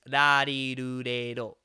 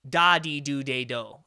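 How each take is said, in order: First: Each syllable starts with a light D-L-R tap. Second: Each syllable starts with a hard D sound. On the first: The speaker calls it right. "It's it's a combination of the D, the L, and the R" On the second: The speaker calls it wrong. "it's not really a D because that'd be"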